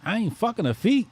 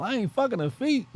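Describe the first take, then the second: First: Quoting Boomerang. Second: High, far put-on Martin voice; hammed-up movie line quote, pitched way up; Martin impression. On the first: Retold or imitated. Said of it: "What they said in Boomerang?". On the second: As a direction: quote Martin from Boomerang in his voice. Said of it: "Isn't that what Martin said?".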